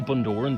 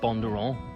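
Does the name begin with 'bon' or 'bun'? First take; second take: bun; bon. First: The first syllable sounds like 'bun'. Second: The first syllable sounds like 'bon'. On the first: This is how other people say it. "You say Bundoran" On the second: This is how the speaker's own circle says it. "we pronounce it Bondoran"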